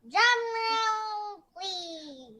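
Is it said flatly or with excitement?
excitement. It is said with excitement.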